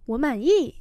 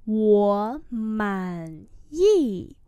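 First: Said in the usual way. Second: Very slow, three drawn-out syllables; slow model reading. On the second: Shown as a demonstration. Teacher repeating a phrase for learners, very slowly. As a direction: give each syllable full length.

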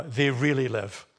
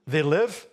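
First: Slow, weighty stress on "really live"; emphatic correction. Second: Loud, doubting "They live?"; questioning. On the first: Preacher correcting the weaker reading for congregation, emphatic. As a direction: stretch out "really live" as the firm answer. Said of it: "He emphasizes it again". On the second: Preacher posing the weaker reading to congregation, questioning. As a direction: toss out "live" loudly as a question to be corrected. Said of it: "No, no, no". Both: Shown as a demonstration.

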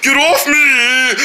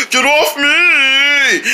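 First: Slowed, grumbly mock seal; slow grumbling seal. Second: Slow, drawn-out mock yell; yelled seal voice. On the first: Kid voices the seal grumbling at riders, slow. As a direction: grumble it out slowly. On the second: Kid voices the seal yelling to get riders off. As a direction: stretch it into a whiny yell. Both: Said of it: "he gonna start rolling like".

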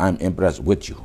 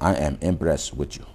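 First: Said in the usual way. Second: I am impressed with you, every word slow and separate; slow, full form. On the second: Shown as a demonstration. Teacher showing students the full form, slowly. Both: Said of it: "ဒီလိုပြောရတယ်".

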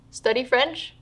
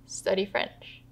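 First: STUDY FRENCH raised in pitch, rising on French; rising list item. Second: "Study French" repeated softly at usual pitch; quiet echo. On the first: Acted. Mother answers what she intends to do, rising list tune. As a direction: lift "Study French" up at the end, as first in a list. Mother lists her bedside plans. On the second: Retold or imitated. Daughter repeats her dying mother's plan, quiet aside. Narrator echoes mother's surprising answer.

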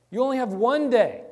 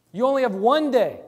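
The two takes are said the same way.

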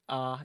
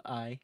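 First: "ah" as a Southern "I", one long open vowel; Southern pronunciation. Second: Said in the usual way. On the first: Shown as a demonstration. Streamer showing chat their Southern drawl, "ah" drawn out. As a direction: say "ah" for I, without the glide. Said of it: "phonetic pronunciation like ah instead of I". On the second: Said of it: "like ah instead of I".

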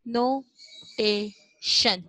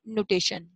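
First: नोटेशन very slowly, long gaps between no, tay and shun; broken into syllables. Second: Said in the usual way. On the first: Shown as a demonstration. Teacher helping pupils who can't read the word, broken up. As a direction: stretch नोटेशन out one syllable at a time. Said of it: "आप इसको break करके पढ़ो". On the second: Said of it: "जल्दी जल्दी पढ़ोगे तो".

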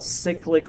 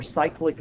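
First: "cyclic" as SICK-lik; short i in the first syllable of "cyclic"; own habitual pronunciation. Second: "cyclic" as SIKE-lik; long i in the first syllable of "cyclic"; alternative pronunciation. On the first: Teacher explaining why it's called that, "cyclic" as SICK-lik. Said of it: "I've always pronounced it cyclic". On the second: Teacher explaining why it's called that, "cyclic" as SIKE-lik. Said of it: "Some people pronounce that cyclic". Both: Shown as a demonstration.

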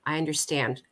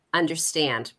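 First: A soft, gently reassuring "I understand"; mild imitation of a social worker soothing a child; social worker's reassurance. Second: "understand" singled out and weighted with a falling tune; stress on understand. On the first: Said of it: "they would say". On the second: Shown as a demonstration. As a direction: lean on "understand" as the word that stung. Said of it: "it was that one word".

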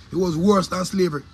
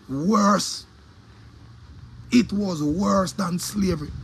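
First: Said in the usual way. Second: Slow, weighted delivery; slow emphatic. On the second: Real, not acted. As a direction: drag it out for weight.

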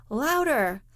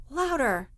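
First: Sharp, raised command, higher and a bit louder; a teacher losing patience, crying out; cried out. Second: Pushed higher, repeated with more insistence; a teacher insisting again, crying out; insistent cry. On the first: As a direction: call it out to the back of the room. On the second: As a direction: press the order home. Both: A narrator's reading. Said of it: "cried the master".

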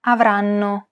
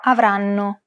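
First: Avranno said evenly, syllable by syllable. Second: Avranno with each syllable the same length; even syllables. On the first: Teacher repeating Avranno with even syllable timing. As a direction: give each part of Avranno equal time. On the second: Teacher demonstrating Avranno's even syllable timing. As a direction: hold the double N in Avranno as long as the other syllables. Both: Shown as a demonstration. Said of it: "each syllable is pronounced for roughly the same".

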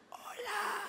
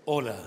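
First: Much higher, soft squeaky hello; a timid squeak instead of depth; failed deep hello. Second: Lower, deep hello with power; deep, powerful hello. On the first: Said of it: "Uy, sí". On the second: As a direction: give it depth and punch. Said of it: "Con profundidad, pero con potencia". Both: Shown as a demonstration.

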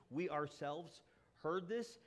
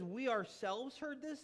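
First: Said in the usual way. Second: Slow, weighty "We ourselves heard this", each word leaned on; emphatic. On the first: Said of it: "in the passage". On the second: Shown as a demonstration. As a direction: underline "ourselves" and "heard" slowly, as proof. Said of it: "one of those emphatic Greek words".

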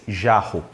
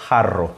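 First: "jarro" with zh at the start and breath-like rr, falling pitch; Portuguese pronunciation. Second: "jarro" with throaty h and rolled rr, falling pitch; Spanish pronunciation. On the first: Teacher giving the Portuguese word for comparison, Portuguese pronunciation. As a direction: say "jarro" the Brazilian way, without a trill. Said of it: "Em português". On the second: Teacher giving the Spanish word for comparison, Spanish pronunciation. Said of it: "Em espanhol". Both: Shown as a demonstration.

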